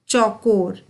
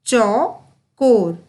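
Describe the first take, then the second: First: Said in the usual way. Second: चौकोर split as चौ, कोर with a pause; slow syllable by syllable. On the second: Shown as a demonstration. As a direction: sound out चौकोर slowly, part by part. (चौ-कोर को तोड़कर धीरे-धीरे बोलना) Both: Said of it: "उच्चारण पर बहुत ही अधिक ध्यान".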